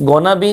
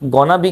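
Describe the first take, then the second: First: The words are blended into a short form. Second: The same.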